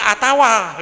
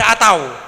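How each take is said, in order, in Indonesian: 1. Kata itu berakhir dengan bunyi 'tawa'. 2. Kata itu berakhir dengan bunyi 'tau'. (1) "yang betul itu atawa" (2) "Jadi dibaca atau"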